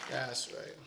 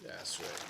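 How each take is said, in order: First: Said in the usual way. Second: Breathy whisper, lower. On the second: Acted. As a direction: whisper it to yourself. Repeating the clip line to himself.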